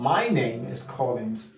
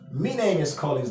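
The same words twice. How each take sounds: First: The first word sounds like 'my'. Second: The first word sounds like 'me'. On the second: "Someone with a Cockney accent will not say my, but me"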